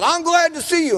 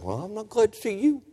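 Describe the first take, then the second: First: High-pitched mock preacher's welcome; imitated over-eager welcome, pitched way up; greeting preacher. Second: Softer mock grumble to the preacher; imitated reluctant churchgoer's quiet comeback; unwelcoming retort. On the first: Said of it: "when the preacher said". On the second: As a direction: answer back under your breath, rising at the end. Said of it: "I wanted to tell him".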